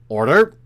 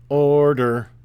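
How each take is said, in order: First: The pitch goes up on the word. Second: The pitch drops on the word. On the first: The speaker calls it right. "it's always the inflection going up" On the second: The speaker calls it wrong. "You have a drop in your voice for the uh, the preparatory command"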